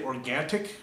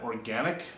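First: Organic said or-gan-tik with an added T; organtic, a stray T; mispronounced organic. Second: Said in the usual way. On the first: Shown as a demonstration. Quizzing viewers, organic said organtic. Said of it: "organic rather than organic". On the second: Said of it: "rather than organic".

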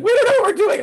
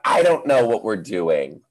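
First: Put-on very high squeaky kid voice. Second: Own reply. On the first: Teacher imitating confused kids in high squeaky voices. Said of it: "They're like". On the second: Retold or imitated. Teacher answering the kids in own helpless voice. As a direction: own voice, slightly raised. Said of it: "I'm like".

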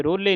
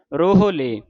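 First: ਰੋਲੇ with no h, ro-le; wrong reading. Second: ਰੋਹਲੇ as ro-ho-le, h audible; h sound pronounced. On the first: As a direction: drop the h, say ਰੋਲੇ. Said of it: "ਰੋਲੇ ਨਹੀਂ ਕਹਿ ਦੇਣਾ". (ਰੋਲੇ, ਹਾਹੇ ਤੋਂ ਬਿਨਾਂ) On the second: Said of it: "ਰੋਹਲੇ ਹਾਹੇ ਦੀ ਆਵਾਜ਼ ਉਚਾਰਨ ਹੋਵੇ". (ਰੋਹਲੇ, ਹਾਹੇ ਦੀ ਆਵਾਜ਼ ਨਾਲ) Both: Shown as a demonstration.

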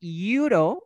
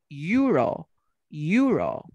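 First: "Euro" stretched as ee-OO-ro; drawn-out ee-oo-ro for "Euro"; vowel-initial euro. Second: "euro" as YOO-ro, falling; emphatic YOO-ro for "euro"; consonant y euro. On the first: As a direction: begin "Euro" on a slow ee vowel. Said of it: "mira, I y la U". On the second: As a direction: start "euro" with a firm y consonant. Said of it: "La Y de yate". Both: Shown as a demonstration.

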